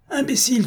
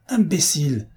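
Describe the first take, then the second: First: Imbécile again, far higher, a shrieking peak; furious repeat. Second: Angry spat-out Imbécile, first of two; enraged insult. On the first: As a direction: let the second Imbécile fly up in fury. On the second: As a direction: open the rage with Imbécile, sharp and falling. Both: A narrator's reading. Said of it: "Dobrec eut un mouvement de rage".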